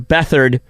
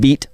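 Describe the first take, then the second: First: The name begins with a 'beth' sound. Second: The name begins with a 'beat' sound. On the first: The speaker calls it right. "his name" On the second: The speaker calls it wrong. "they'll say Beat Hard because that's how it's spelled"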